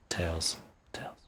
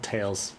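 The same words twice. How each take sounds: First: Breathy whisper of the name. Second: Said in the usual way. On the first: Shown as a demonstration. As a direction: hush it to a whisper.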